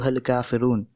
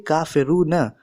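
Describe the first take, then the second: First: The final short vowel is dropped, ending on n. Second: The final short vowel is pronounced at the end. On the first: The word ends a sentence, so the last vowel is silent. "but we pronounce it as" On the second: This is the full written form of the word. "It will be kafiruna"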